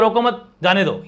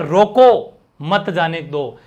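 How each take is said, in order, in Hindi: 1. विराम शब्द 'mat' के बाद आता है। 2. विराम शब्द 'roko' के बाद आता है। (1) "यहां तो आपने परमिशन दी है।" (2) "यहां पर आपने मना कर दिया।"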